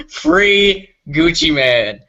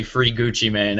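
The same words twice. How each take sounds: First: Drawn-out chant. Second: Said in the usual way. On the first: Pretend. Chanted, shouting out to a rapper, slowly stretched out. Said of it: "laughs before the drawn-out chant". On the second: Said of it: "You gotta say it like".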